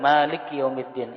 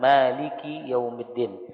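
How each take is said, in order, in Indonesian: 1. Bunyi k tidak diikuti vokal. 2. Bunyi k diikuti vokal i. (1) "kapnya disukunkan ... itu salah" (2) "harus dikasrahkan"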